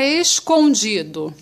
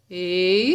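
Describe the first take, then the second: First: Said in the usual way. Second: "Escondido" as es, con, di, do with long pauses; syllable by syllable. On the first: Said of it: "Vamos separar". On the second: Shown as a demonstration. Teacher separating the word for pupils, syllable by syllable. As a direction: isolate each syllable of "Escondido". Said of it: "Vamos separar escondido".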